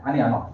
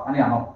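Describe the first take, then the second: Both takes have the same delivery.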